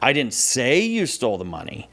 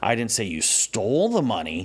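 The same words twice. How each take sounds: First: The stress is on "say". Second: The stress is on "stole".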